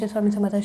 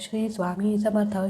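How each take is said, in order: First: It is said quickly and restlessly. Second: It is said slowly and calmly. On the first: The speaker calls it wrong. "असं नाही म्हणायचं" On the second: The speaker calls it right. "ह्या टोनमध्येच अगदी शांत"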